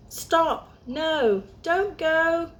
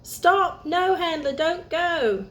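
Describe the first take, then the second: First: Urgent warning call. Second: Urgent shout to stop. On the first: A squirrel calls out to stop Olive, high urgent shout. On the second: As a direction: yell before the car goes over. Car heading for cliff. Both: Acted.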